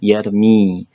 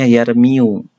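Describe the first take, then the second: First: The word ends on a plain 'i' vowel. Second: The word ends with an added 'u' vowel. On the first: The final weak letter drops the ending. "jadi kita bisa sebut dengan yarmi" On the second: This is the full underlying form. "yarmi ini sebetulnya yarmiu"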